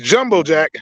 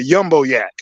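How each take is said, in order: First: Both words begin with a J sound. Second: Both words begin with a Y sound. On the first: This is the actual name. The speaker calls it right. "It's Jumbo Jack" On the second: It imitates how someone else said it. The speaker calls it wrong. "that's how he pronounced it"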